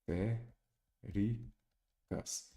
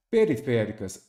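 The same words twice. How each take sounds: First: "Periféricas" very slowly, each syllable apart with long gaps. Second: Said in the usual way. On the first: Shown as a demonstration. Teacher showing how to separate syllables for accentuation, syllable by syllable. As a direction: break "Periféricas" into five softer, separate syllables. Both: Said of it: "sem separar em sílabas".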